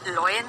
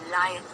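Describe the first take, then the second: First: The first vowel is a rounded 'aw' sound. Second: The first vowel is an open 'ah' sound. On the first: The speaker calls it wrong. "बहुत लोग बोलते हैं इसे लॉयन, लॉयन नहीं" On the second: The speaker calls it right. "अ आ, आ की मात्रा य, लायन"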